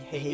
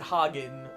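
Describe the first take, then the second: First: The first vowel sounds like the e in egg. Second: The first vowel is a plain open a sound. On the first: "I think the A with the umlauts is pronounced egg, so it would be Hagen" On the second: "But they pronounce it Hagen"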